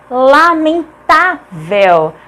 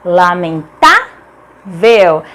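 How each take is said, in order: First: "lamentável" slowly split, leaning on tá; slow "lamentável", stressed on tá; syllable by syllable. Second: "Lamentável" with tá lifted, then a long pause before low vel; lower, slow "Lamentável" in separated chunks; syllable by syllable. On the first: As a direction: stretch "lamentável" as lamen... tá... vel. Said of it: "É acentuada porque é uma paroxítona". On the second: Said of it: "é uma paroxítona". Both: Shown as a demonstration.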